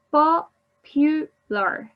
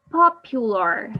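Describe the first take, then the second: First: "Popular" stretched slowly and higher, each syllable clear; teacher slowly modelling "Popular" with a raised pitch; slow, spelled out. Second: Said in the usual way. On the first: Shown as a demonstration. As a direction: draw out "Popular" so the three syllables are counted. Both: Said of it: "Three syllables".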